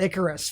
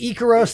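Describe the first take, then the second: First: The name is said with an English-style pronunciation. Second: The name is said with a Greek-style pronunciation. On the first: The speaker calls it wrong. "not Icarus. Fuck you" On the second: The speaker calls it right. "Her name is Icaros"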